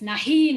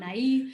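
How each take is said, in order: First: An h sound is heard between the vowels. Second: No h sound is heard between the vowels. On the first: The speaker calls it right. "I do pronounce H's. It's nahi" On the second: The speaker calls it wrong. "not nai"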